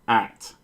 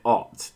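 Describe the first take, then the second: First: The vowel is like the one in cat. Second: The vowel is like the one in hot. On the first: The speaker calls it right. "How do you pronounce the word at?" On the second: The speaker calls it wrong. "You don't pronounce it ot"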